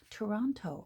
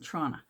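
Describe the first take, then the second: First: The name is said with all three syllables. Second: The name is squeezed into two short syllables. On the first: It is the form the rest of the world knows. "if you say Trana to the rest of the world" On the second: It sounds like a local from the city. "We pronounce it Trana"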